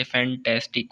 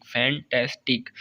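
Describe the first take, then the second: First: "fantastic" in three parts, fan-tas-tic; broken into syllables. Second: "fantastic" slowly, fan, tas, tic with gaps; broken into syllables. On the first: Teacher showing a three-syllable word, "fantastic" said part by part. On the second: Teacher repeating for students, "fantastic" slowly syllable by syllable. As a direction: pull "fantastic" apart into three slow beats. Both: Shown as a demonstration. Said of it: "तीन syllable words भी हैं".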